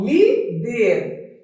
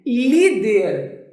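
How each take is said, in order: First: "líder" split as lí-der, stressing lí; syllable by syllable. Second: Said in the usual way. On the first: Shown as a demonstration. Teacher showing a student the strong syllable of "líder", syllable by syllable. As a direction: say "líder" in two separate beats, lí, der. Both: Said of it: "Qual é a sílaba mais forte?".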